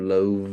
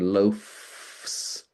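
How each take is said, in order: First: The consonant before the final S is a voiced V. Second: The consonant before the final S is a voiceless F. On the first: The speaker calls it right. "so I shift it to loaves" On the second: The speaker calls it wrong. "the F is unvoiced and the S is unvoiced, but it's a bit awkward"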